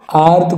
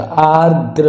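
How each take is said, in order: First: आर्द्र without its last r; wrong dropped final r. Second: आर्द्र drawn out, ending "dr"; correct final r. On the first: Teacher rejects this आर्द्र, final r missing. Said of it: "आर्द्र कुछ नहीं होता". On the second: Teacher gives the correct आर्द्र, slow, with final r. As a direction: say आर्द्र slowly as "aar-dra". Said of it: "ये सही है बिल्कुल". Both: Shown as a demonstration.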